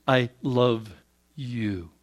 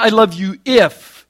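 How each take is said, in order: First: Softer, lower tender I love you; unconditional love. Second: Slow, louder stress on if; conditional love quote. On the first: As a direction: say it gently, fading on you. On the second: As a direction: lean hard on the word if, mockingly. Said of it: "It's not". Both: Shown as a demonstration.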